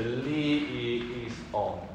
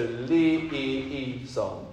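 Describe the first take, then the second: First: A glottal break comes before on. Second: The s runs straight into on, linked. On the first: The speaker calls it right. "a nice thing called a glottal, where you make a thing of the O on the on" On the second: The speaker calls it wrong. "I don't think it is Lee song"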